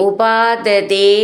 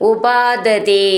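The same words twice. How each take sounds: No difference in how they are said.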